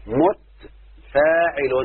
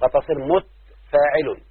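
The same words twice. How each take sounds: First: متفاعل drawn out syllable by syllable, taa silenced; very slow syllable-by-syllable demo. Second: متفاعل said slowly with the second letter silenced; slow demo of the foot. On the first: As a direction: stretch متفاعل very slowly, each syllable held. (متفاعل ممدودة جدا مقطعا مقطعا) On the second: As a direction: spell out متفاعل slowly, stilling the taa. (نطق متفاعل ببطء بتسكين التاء) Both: Shown as a demonstration. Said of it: "الحرف المتحرك الثاني سكن".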